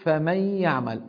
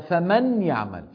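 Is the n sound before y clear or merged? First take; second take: merged; clear. First: The n merges into the following y. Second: The n is pronounced clearly before y. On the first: "لما أنا بقول فمن يعمل" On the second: "أصلها فمن يعمل"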